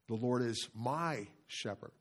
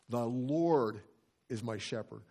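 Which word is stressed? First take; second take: my; Lord. First: The stress falls on "my". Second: The stress falls on "Lord".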